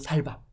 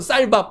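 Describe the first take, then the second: First: The first sound is a plain, soft s. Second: The first sound is a tense, hard s. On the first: The speaker calls it wrong. "경상도 분들 ... 쌍시옷 발음을 못 하는데" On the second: The speaker calls it right. "쌍시옷 발음"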